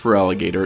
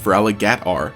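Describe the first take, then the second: First: The name ends with a full 'gator' sound. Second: The name ends in 'gatr', without the O. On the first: The speaker calls it wrong. "shouldn't even be pronounced" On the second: The speaker calls it right. "it should be pronounced"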